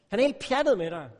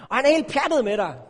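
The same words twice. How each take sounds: First: Said in the usual way. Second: "er" punched high and loud, whole line raised and louder; excited preacher stressing "er"; emphatic ER. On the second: Acted. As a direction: lean hard on "er" in "han er helt pjattet". Preacher stresses God's love.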